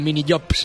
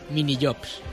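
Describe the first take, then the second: First: The word jobs begins with a Y sound. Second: The word jobs begins with a J sound. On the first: The speaker calls it wrong. "Como si fuera con Y" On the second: The speaker calls it right.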